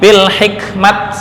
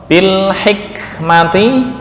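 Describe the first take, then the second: First: The word ends in a clipped -at. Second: The word ends in a full -ati.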